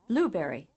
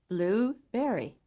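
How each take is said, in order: First: The first syllable is much louder than the second. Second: The second syllable is almost as loud as the first. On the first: "the left column items" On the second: "the right column items louder and clearer"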